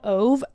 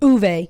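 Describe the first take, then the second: First: The name is said in a non-Swedish way. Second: The name is said in the Swedish way. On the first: The speaker calls it wrong. "I think it's not pronounced that" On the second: The speaker calls it right. "That's the Swedish pronunciation"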